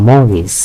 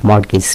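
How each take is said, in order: First: মর্গেজ without T, "mor-gis"; silent T. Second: মর্গেজ with T sounded, "mort-gis"; mispronounced mortgage. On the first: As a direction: go straight from R to G in মর্গেজ. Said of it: "উচ্চারণ কিন্তু মর্গেজ". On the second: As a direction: put an audible T before the G in মর্গেজ. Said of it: "এর উচ্চারণটা মর্গেজ না". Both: Shown as a demonstration.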